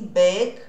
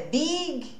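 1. A vogal soa mais próxima de eh. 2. A vogal soa como um ee tenso. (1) "o som do I, na verdade, tem um som de E" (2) "não é Big"

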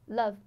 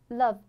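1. 这个元音很短，嘴巴只是稍微张开一点。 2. 这个元音很短，嘴巴只是稍微张开一点。

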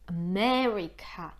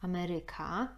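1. Akcent pada na drugą sylabę. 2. Akcent pada na trzecią sylabę. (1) "a po angielsku mamy akcent na me" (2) "mamy akcent po polsku Ameryka"

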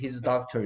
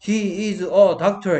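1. 단어들이 빠르게 하나로 이어져 말해집니다. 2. 각 단어가 따로, 분명하게 말해집니다. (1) "소리를 막다 붙여버립니다 이런 식으로" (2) "해야 되는데"

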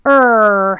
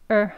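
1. 모음이 힘이 세고 긴장이 강해요. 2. 모음이 가볍고 긴장이 적어요. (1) "er 하고 힘을 주어서 혀를 많이 당겼다면" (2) "er 하는 거는 그냥 조금만요"

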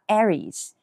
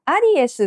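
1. 英語の母音で言う。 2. カタカナの母音で言う。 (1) "英語はAries" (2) "カタカナで言ったりしますが、アリエスはこれローマ字読みですね"

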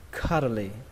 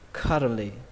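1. Đọc nhanh, âm t bị lược bỏ hoàn toàn. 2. Đọc nhanh, âm t bị lược bỏ hoàn toàn.

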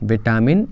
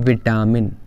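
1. यह शब्द आम तौर पर बोले जाने वाले रूप में कहा गया है। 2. यह शब्द आम तौर पर बोले जाने वाले रूप में कहा गया है।

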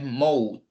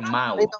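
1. La vocal después de la m no suena como una a. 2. La vocal después de la m suena como una a abierta. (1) "no es mouth" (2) "al inicio, mouth, como con una A"

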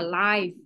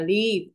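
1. Nguyên âm là âm 'eye'. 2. Nguyên âm là âm 'i' ngắn. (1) "phát sóng trực tiếp á, thì mình mới có là live" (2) "Sống ở nơi nào đó thì em sẽ đọc là live"

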